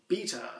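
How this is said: It is said the British way. "in the U K they refer to that word as"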